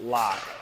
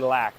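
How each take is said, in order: First: The vowel sounds like the one in lock. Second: The vowel sounds like the one in cat. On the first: The speaker calls it wrong. "not lock" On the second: The speaker calls it right. "Got to say lack"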